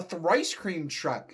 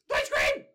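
First: Said in the usual way. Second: Excited mock shout with a strained voice. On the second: Chowder turns round to look for the truck, shouted. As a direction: cry it out as if spotting a treat. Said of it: "he shouted".

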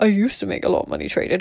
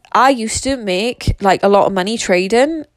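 First: Quick, soft echo of oneself; amused self-mimicry. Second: Said in the usual way. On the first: Speaker amused by her own line, quick self-mimicry. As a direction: toss it off quickly and softly, mock boasting.

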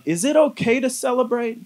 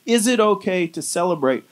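First: A raised, hesitant asking of the question; doubtful wondering. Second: Said in the usual way. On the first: Retold or imitated. Preacher voices a believer wondering aloud, pitched up and unsure. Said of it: "in a position or a posture to wonder". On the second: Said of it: "we can kinda have this ... posture".

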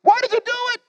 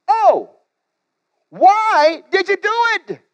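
First: Much higher, whining groan; groaning sailors. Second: High, drawn-out groaning plea; groaning sailors. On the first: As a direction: plead with a high groan. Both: Acted. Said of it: "They groaned".

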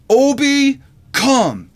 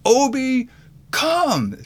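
First: Put-on high, loud little-kid command; imitated three-year-old. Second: High-pitched imitation of a small child commanding; bold, authoritative toddler. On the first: Three-year-old orders the big dog over, imitated high and loud. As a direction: mimic a small child calling the dog, pitched right up. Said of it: "my little three-year-old looks at my dog". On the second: Three-year-old tries again on the dog, imitated bold, high-pitched command. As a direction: mimic a little kid trying to sound commanding, voice high. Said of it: "in his most bold, deep, authoritative voice".

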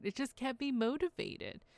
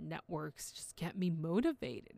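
First: Repeated higher, "me" stressed; the point said again, higher and stronger; emphatic repeat. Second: Said in the usual way. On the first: Real, not acted. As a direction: lift the repeat up high for emphasis.

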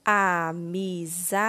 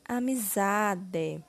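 First: AMIZADE drawn out slowly as a, mi, za, de; syllable by syllable. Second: Said in the usual way. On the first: Shown as a demonstration. Teacher completing the word with syllable dé, slowly syllable by syllable. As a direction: sound out AMIZADE one syllable at a time. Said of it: "Iremos utilizar a sílaba dé". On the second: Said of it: "formando a palavra".

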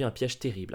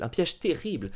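First: Said in the usual way. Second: "Un piège terrible!" repeated higher with dramatic weight on "terrible". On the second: Shown as a demonstration. Host retelling grandfather's trap, dramatic repeat of "Un piège terrible!". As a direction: hit "terrible" like a horror-movie reveal.

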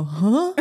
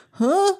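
First: Blunt huh. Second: Much higher, louder "Huh?" breaking into a laugh; straight-up huh. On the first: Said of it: "And I turn to him and I go". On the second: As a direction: blurt "Huh?" loud and high, laughing. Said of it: "just straight up like". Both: Retold or imitated.

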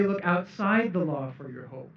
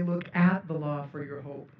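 First: Outside pressed hard in "Look outside the law"; "outside" said with weight, not at; stress on outside. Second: At pressed hard in "Look at the law"; "at" said with weight, not outside; stress on at. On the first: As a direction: lean on the word outside. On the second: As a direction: lean on the word at. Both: Shown as a demonstration. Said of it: "It doesn't say".

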